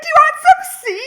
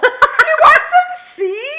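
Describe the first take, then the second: First: Very high, loud, rushed mock squeal; imitating someone bumped up. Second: Very high, loud, drawn-out mock squeal; imitating someone bumped up. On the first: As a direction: fire off the offer like someone wired, hammed up. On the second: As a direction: stretch the offer out in a wired shriek, laughing. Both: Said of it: "she's, like, all bumped".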